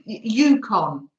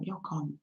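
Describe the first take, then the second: First: "Yukon" said "YOO-kon", first syllable like "you"; slow, careful "Yukon" with "yoo"; corrected Yukon. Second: "Yukon" said "YAW-kon", first syllable like "yaw"; "Yukon" with an open "yaw" opening; mispronounced Yukon. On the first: Correcting "Yukon" after viewers fix her. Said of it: "It's pronounced Yukon". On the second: Saying "Yukon" the wrong way to the live chat. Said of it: "I knew I'd say it wrong". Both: Shown as a demonstration.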